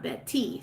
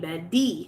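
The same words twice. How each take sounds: First: The middle consonant is a crisp, hard T. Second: The middle consonant sounds like a soft D. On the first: The speaker calls it wrong. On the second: The speaker calls it right. "the T actually makes the D sound in her name"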